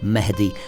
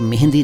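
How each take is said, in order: First: No nasal 'n' sound comes before the 'd'. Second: A nasal 'n' sound comes before the 'd'. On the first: The speaker calls it right. "नून नहीं है" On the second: The speaker calls it wrong. "मेहंदी नहीं"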